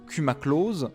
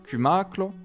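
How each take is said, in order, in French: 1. La consonne finale se prononce. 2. La consonne finale est muette. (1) "que l'on pourrait lire" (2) "se prononce en réalité"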